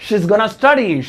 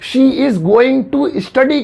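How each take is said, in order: First: It is said with the reduced form 'gonna'. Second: It is said with the full form 'going to'.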